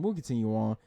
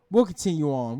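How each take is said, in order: First: We'll continue on repeated much lower and softer, trailing away. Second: Said in the usual way. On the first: Shown as a demonstration. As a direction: echo the line to yourself, lower and softer.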